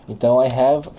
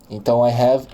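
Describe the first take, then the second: Both takes have the same delivery.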